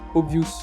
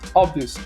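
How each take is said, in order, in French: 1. La première voyelle est un O fermé à la française. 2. La première voyelle est un O ouvert à l'anglaise. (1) "c'est pas à la française, le, je ne prononce pas le O" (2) "je m'ouvre la bouche vraiment, ma bouche est très ouverte"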